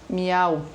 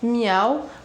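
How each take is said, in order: First: It is said as a forceful exclamation. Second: It is said with a questioning intonation. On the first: The cat is declaring something. "Esse miau vem com uma exclamação. Não é um miau de pergunta" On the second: The cat is asking something. "poderia ser uma pergunta assim"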